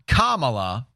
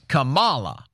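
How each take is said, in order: First: The syllable 'ma' is not emphasized. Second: The syllable 'ma' is emphasized. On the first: The speaker calls it wrong. "It's not Kamala" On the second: The speaker calls it right. "You emphasize that ma"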